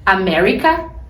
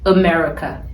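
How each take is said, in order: First: It is said with a Brazilian Portuguese accent. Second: It is said with an American English accent. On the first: The speaker calls it wrong. "meio aportuguesado" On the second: The speaker calls it right. "Não soa muito mais gringo?"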